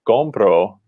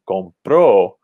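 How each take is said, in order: First: The stress is on the first syllable. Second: The stress is on the second syllable.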